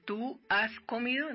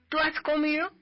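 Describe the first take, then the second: First: The words are said separately and fully. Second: The words are run together in a reduced form. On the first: "yo no le digo a una persona" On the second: "Ahí ya lo castellanicé y lo americanicé a lo muisca"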